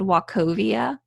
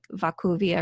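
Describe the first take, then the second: First: It is said with a plain English pronunciation. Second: It is said with a German-style pronunciation.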